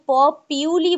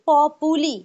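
First: It sounds like 'po-pyoo-lee', with a 'pyoo' sound. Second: It sounds like 'pop-oo-lee', with three syllables. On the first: Some people say it this way. "কেউ প পিউলি বলে" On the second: This is how the speaker says it now. "কিন্তু আমি এখন বলছি পপুলি"

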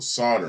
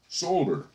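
First: It is said in an American accent. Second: It is said in a British accent. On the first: "me being a dumb American in England would go" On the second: "as the Brits would say... They say"

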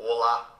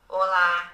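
First: It is said in a deep adult voice. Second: It is said in a high childlike voice.

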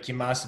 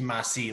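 First: The ending is said plainly and naturally. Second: The ending is pushed into a forced dialect sound. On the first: The speaker calls it right. "instead of kimase" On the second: The speaker calls it wrong. "that sounds really forced"

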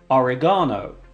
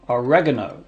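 First: It is said with a British pronunciation. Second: It is said with an American pronunciation.

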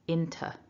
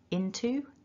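First: The word is said with a reduced, weak second vowel. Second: The word is said with a full, clear second vowel. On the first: "weak into" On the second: "strong into"

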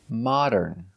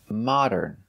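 The two takes are said the same way.

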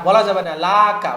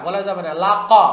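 No difference in how they are said.

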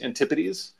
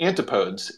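First: The word has its standard pronunciation. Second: The word is pronounced just as it is spelled. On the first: The speaker calls it right. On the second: The speaker calls it wrong.

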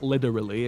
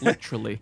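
First: The middle consonant sounds like a soft D. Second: The middle consonant does not sound like D. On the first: The speaker calls it wrong. "There's no D's in it. It's not literally" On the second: The speaker calls it right. "it's literally"

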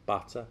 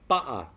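First: The middle sound is a clear T. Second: The middle sound is a glottal stop. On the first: "the T that comes from the front of the mouth" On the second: "Replacing the T sound with a glottal stop"

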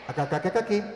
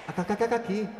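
The two takes are said the same way.

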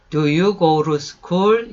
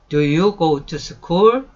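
First: It is said in a relaxed American style. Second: Each word is said carefully and separately. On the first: "그 미국 사람들처럼 하려고 하면은" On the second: "다시요"

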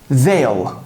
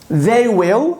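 First: Will is shortened and joined to the pronoun. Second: Will is said as a separate full word.

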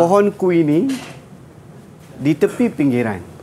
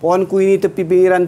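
First: The line has a short pause in the middle. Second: The line is read straight through without pausing. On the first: The speaker calls it right. "Sebenarnya pantun ada jeda... kena berhenti di tengah-tengah ni" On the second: The speaker calls it wrong. "Kita baca macam ni... dah sampai habis"

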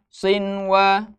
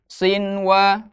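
First: The n sound is pronounced clearly before w. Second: The n sound is pronounced clearly before w.

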